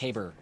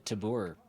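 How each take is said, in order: First: The name rhymes with labor. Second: The name does not rhyme with labor.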